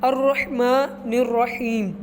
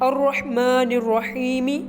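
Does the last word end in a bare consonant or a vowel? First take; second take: consonant; vowel. First: The final m is bare, with no vowel. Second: The final m is followed by a short i vowel. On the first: The reciter stops at the end of the verse. "मीम को हमने साकिन कर देना क्योंकि हमने यहाँ पे वक्फ कर दिया" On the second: The reciter joins this verse to the next one. "मिलाकर जब पढ़ेंगे तो मीम के नीचे जेड पड़ी जाएगी"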